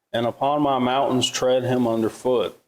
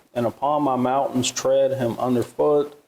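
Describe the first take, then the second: The two takes are said the same way.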